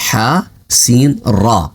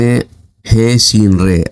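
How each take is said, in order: First: The letter names end in an 'a' vowel. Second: The letter names end in an 'e' vowel. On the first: This is the Arabic way of saying the letters. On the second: This is the Urdu way of saying the letters.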